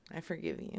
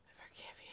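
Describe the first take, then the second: First: Said in the usual way. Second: Breathy whispered forgiveness; whispering. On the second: Acted. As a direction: drop it to a whisper. Repeats the line, then whispers it.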